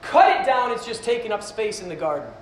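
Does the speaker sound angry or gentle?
angry. The line is said in an angry tone. The master is fed up with the tree. The speaker calls it wrong. "Is the master angry in this story?"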